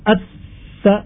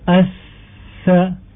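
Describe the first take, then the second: First: The consonant is pressed hard and cut short. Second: The consonant is soft, breathy and held long. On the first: The speaker calls it wrong. "Tidak dibaca at-sa kuat misalnya, sehingga dia akan tertahan" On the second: The speaker calls it right. "mengalir masa hurufnya dibaca dengan panjang"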